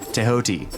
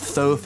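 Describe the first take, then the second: First: The name is said as 'Tehoti'. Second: The name is said as 'Thoth'. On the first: This is the original way to say it. The speaker calls it right. "properly pronounced" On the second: This is the common way people say it. The speaker calls it wrong. "is how people say it"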